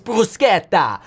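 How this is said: It is said the authentic Italian way. The speaker calls it right. "it's bruschetta, ... authentic"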